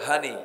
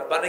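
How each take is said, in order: First: It starts with an h sound, Noakhali dialect. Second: It starts with a p sound, standard Bengali.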